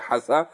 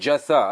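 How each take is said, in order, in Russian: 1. Слово начинается со звука 'h'. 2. Слово начинается со звука 'dj'. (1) "может быть, сказал в прошлой лекции «хаса»" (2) "правильно сказать «джаса» однозначно"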